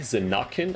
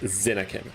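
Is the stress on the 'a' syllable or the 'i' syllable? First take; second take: a syllable; i syllable. First: The stress falls on the 'a' syllable. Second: The stress falls on the 'i' syllable. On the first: "is the emphasis on the A" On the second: "Like on the on the I?"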